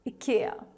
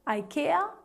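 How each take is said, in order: First: It is said with a Swedish pronunciation. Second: It is said with an English pronunciation. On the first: "the correct Swedish pronunciation" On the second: "English speaking people end up pronouncing it as"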